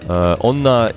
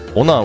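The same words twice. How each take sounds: First: There is a short hold before the n sound. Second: There is no hold before the n sound. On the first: "it has a pause" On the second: "would be something else entirely"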